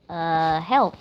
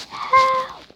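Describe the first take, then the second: First: Low "Uh" set apart before "help"; hesitant "Uh, help". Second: "Help" cried out very high; yelled "Help". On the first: Retold or imitated. Gamer mimicking the wrong way, hesitant "Uh, help". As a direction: stall on "Uh", then say "help" without yelling. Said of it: "instead of, uh". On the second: Shown as a demonstration. Gamer showing how to call for rescue, yelled "Help". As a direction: yell "Help" straight out, pitch leaping up. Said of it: "just yell".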